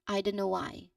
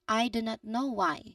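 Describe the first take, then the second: First: Said naturally, with the T sound dropped. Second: Said slowly, with every sound clearly pronounced. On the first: "Now practice the natural elided version" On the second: "say very slowly and make all the sounds clear"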